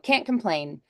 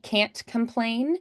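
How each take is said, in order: First: The T in can't is barely heard. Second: The T in can't is clearly pronounced.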